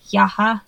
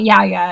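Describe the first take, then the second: First: The middle h sound is clearly pronounced. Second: The middle h sound is silent. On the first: The speaker calls it right. "you have to put like a stress on the H" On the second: The speaker calls it wrong. "It's not Yaya anyway"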